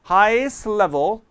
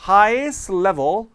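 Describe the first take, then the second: No difference in how they are said.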